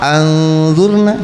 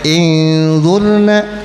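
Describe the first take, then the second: First: The word begins with an a vowel. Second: The word begins with an i vowel. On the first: "atau anzurna, salah" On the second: "Enggak boleh inzurna, salah"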